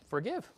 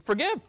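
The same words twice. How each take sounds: First: Said in the usual way. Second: Forgive punched higher and louder, rising at the end; emphatic forgive. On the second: Shown as a demonstration. Preacher correcting himself to stress the point, forgive hit hard. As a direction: land the word forgive hard, like a command. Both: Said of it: "You forg".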